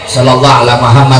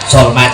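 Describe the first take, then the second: First: Every word of the phrase is fully pronounced. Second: The phrase is squeezed into one short clipped word. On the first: The prayer is recited properly. The speaker calls it right. "Itu udah paling pendek" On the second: The prayer is rushed to finish quickly. The speaker calls it wrong. "Singkat aja"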